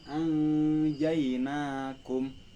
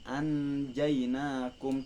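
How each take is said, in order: First: The n sound is held with a nasal hum. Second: The n sound is short with no nasal hum. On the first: The speaker calls it right. "didengungkan gitu si nunnya" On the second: The speaker calls it wrong. "bukan anjainakum"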